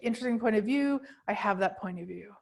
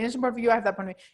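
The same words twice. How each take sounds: First: There is a clear pause between the phrases. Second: The phrases run together without a pause.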